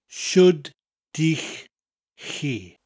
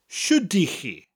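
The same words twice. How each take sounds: First: It is said slowly. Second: It is said at normal speed.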